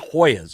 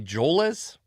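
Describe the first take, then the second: First: The name is said with a Spanish-style H sound. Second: The name is said with an English-style J sound. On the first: This is the traditional Spanish form of the name. "On like traditional Spanish pronunciation" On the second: This is how the name's owner says it. "I think this is how he pronounced his name"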